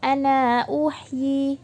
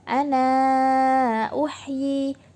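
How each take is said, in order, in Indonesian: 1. Vokal akhir pada ana dibaca pendek. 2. Vokal akhir pada ana dibaca panjang sedang. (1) "Terus itu qasar" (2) "sekarang kita baca tawassut"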